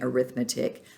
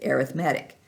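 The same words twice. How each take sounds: First: The stress is on the second syllable. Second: The stress is on the third syllable. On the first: It names the subject of study. "if it's a noun like I am studying arithmetic" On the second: It describes a kind of sequence. "if it's an adjective as in arithmetic sequence, you pronounce it arithmetic"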